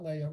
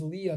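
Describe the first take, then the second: First: Leia said as LAY-uh, softly; mistaken name pronunciation. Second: Leah said as LEE-uh, softly; correct name pronunciation. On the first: Teacher showing the name slip to avoid, Leia pronounced LAY-uh. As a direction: say Leia with an AY sound. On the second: Teacher correcting herself on a student's name, Leah pronounced LEE-uh. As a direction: say Leah with an EE sound. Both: Shown as a demonstration. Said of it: "I always do that wrong, but it is Leah, not Leia".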